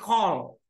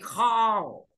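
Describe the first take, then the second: First: The vowel is kept short. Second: The vowel is held long. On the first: "Tapi juga bisa disebut sebagai call" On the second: "Karena A panjang berarti call"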